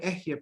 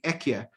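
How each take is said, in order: First: The middle consonant is an h sound. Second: The middle consonant is a k sound. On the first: "I'm not even pronouncing the word Ehyeh properly" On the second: "I'm saying Ekyeh, but out of respect for it"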